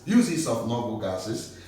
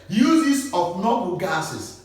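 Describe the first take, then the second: First: Said in the usual way. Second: "Uses of noble gases" slow, with "Uses" stressed; slow announced heading. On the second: Shown as a demonstration. Teacher announcing a new topic to class, slow and emphatic.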